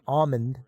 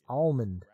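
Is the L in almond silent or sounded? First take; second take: silent; sounded. First: The L in the word is silent. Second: The L in the word is sounded. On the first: The speaker calls it wrong. "It's not almond" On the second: The speaker calls it right. "Alma with an L"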